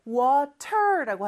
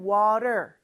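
First: "water" with a crisp, full T; "water" said wa-TER, T unsoftened; hard T in water. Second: "water" with the T as a short tapped R; "water" said wa-der, American style; American flap T. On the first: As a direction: pronounce the T in "water" as a true T. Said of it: "T 발음이 리을처럼 짧게 발음이 되죠". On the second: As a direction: tap the T in "water" lightly, like Korean rieul. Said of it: "요렇게 발음을 하는 거고요". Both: Shown as a demonstration.

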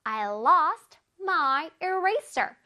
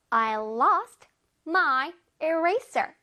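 No difference in how they are said.

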